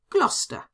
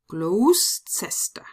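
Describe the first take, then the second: First: The name is read with English letter sounds. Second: The name is read with German letter sounds. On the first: "and that in fact is Gloucester" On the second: "pronounce them in German"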